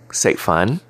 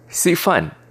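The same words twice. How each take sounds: First: It is pronounced as in Cantonese. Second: It is pronounced as in Hakka. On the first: "In Cantonese" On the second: "In Hakka"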